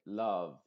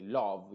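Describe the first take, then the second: First: LOVE as LUHV with a neutral 'uh'; LOVE with an unrounded short vowel; still lips. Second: LOVE with a rounded O, as LOHV; LOVE wrongly said with an O; moving lips. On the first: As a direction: say LOVE without moving the lips. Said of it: "trata de no mover ni siquiera los labios". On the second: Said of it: "y muevas los labios". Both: Shown as a demonstration.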